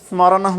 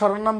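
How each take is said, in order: First: The word begins with an 'sm' cluster. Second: The word begins with a plain 'sh' sound. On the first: The speaker calls it right. "কিন্তু স্মরণম হবে" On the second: The speaker calls it wrong. "অনেকে শরণম বলে"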